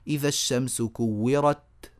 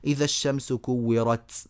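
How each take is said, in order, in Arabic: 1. التاء في آخر الكلمة نطق قاطع واضح دون هسيس. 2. التاء في آخر الكلمة لها إخراج يشبه السين مع هسيس. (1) "هذا هو" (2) "إيه ده تسيين؟ ... غلط"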